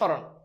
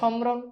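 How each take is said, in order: First: No m sound; the vowel is slightly nasal. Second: An m sound is clearly pronounced after the s. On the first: The speaker calls it right. "তুমি কি বলো? স্মরণ।" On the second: The speaker calls it wrong. "তুমি কি সমরণ বলো? সমরণ না"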